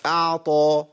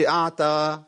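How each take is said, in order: First: أعطى with a powerful heavy ط; full emphatic ط in أعطى; very strong ta. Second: أعطى with ط thinned to ت; slack, light ت sound in أعطى; weak ta like t. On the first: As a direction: press the ط of أعطى hard and open. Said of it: "بيبقى قوي جدًا". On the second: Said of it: "تا، لا". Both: Shown as a demonstration.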